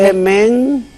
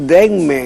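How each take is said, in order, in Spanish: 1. La M va antes que la N. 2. La N va antes que la M. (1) "nos sale más fácil decir" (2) "En vez de decir denme"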